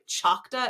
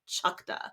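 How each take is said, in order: First: The word ends with an 'aw' sound. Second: The word ends with an 'uh' sound. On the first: The speaker calls it wrong. "it's not so much like Choctaw" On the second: The speaker calls it right. "it's like Chukta"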